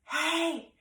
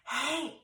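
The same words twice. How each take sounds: First: It is whispered loudly. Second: It is whispered softly. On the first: "you wanted to whisper loudly" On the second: "you wanted to whisper"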